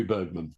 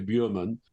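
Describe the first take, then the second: First: "Bergman" in plain English, with the English "Berg"; anglicized name. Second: "Bjurman" said the Swedish way, as the embassy contact would; Swedish pronunciation. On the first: The embassy contact's advice, "Bergman" anglicized. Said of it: "It's got to be Bergman". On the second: Quoting the embassy contact, say "Bjurman" in the Swedish way. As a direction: give "Bjurman" its Swedish vowel, not the English "Bergman". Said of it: "You don't want to pronounce it correctly". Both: Shown as a demonstration.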